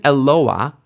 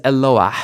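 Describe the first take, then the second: First: "Eloah" ending on an open vowel, rising; silent final hey. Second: "Eloah" closed with a breathed h, falling; audible final hey. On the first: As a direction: say e-LO-a with no breath at the end. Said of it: "So this isn't Eloah". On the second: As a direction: say e-LO-ah and breathe out the last h. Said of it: "You hear the hey at the end". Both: Shown as a demonstration.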